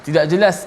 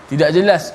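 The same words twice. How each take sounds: Both takes have the same delivery.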